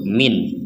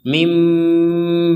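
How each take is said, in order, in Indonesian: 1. Kata ini diakhiri dengan bunyi n. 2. Kata ini diakhiri dengan bunyi m. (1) "Huruf terakhirnya adalah nun" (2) "menggabungkan nun kepada ba sehingga menjadi mim ba'di"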